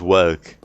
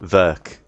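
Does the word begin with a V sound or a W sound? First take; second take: W; V. First: The word begins with a W sound. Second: The word begins with a V sound. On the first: "he goes work" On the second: "he doesn't go work"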